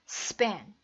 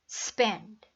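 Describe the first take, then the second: Both takes have the same delivery.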